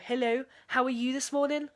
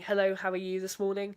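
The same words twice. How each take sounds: First: It is said in a Liverpool accent, rising. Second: It is said in her ordinary accent.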